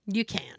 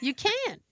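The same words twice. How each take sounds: First: Understated, matter-of-fact no; retold flat refusal. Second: "can't" jumps up very high; high-pitched insistence on "can't"; emphatic refusal. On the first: Patient answering the trainee's offer, flat refusal. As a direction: shut it down without fuss. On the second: Retold or imitated. Patient insisting to the trainee, high emphatic "can't".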